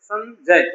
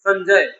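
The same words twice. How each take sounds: First: Sanjay broken into two beats, सन and जय; split into syllables. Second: Said in the usual way. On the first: Shown as a demonstration. Teacher showing children two syllables, Sanjay split in two. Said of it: "दो बार में आता है ना". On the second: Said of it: "हमने एक बार ही बोल दिया".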